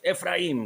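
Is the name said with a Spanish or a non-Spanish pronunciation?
non-Spanish. The name is said with a non-Spanish pronunciation. "because his, his dad says that"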